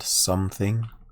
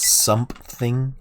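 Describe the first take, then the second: First: It is said with no p sound after the m. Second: It is said with a p sound after the m. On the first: The speaker calls it right. "I don't say S O M E" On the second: The speaker calls it wrong. "I say S O M P. If I'm not thinking about it"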